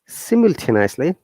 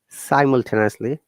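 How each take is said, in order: First: The word is said in a British accent. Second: The word is said in an American accent. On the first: "British I P A" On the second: "American I P A"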